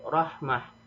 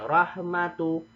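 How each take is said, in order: First: The word ends with an h sound. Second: The word ends with a t and vowel. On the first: The reader stops on this word. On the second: The word is read without stopping.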